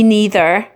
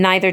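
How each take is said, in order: First: The first vowel sounds like 'ee'. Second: The first vowel sounds like 'eye'. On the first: "the E in neither matches the E in me" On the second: "the I in neither matches the I in I"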